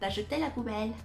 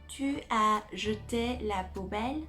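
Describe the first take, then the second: First: The u of tu is dropped. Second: The word tu is said in full.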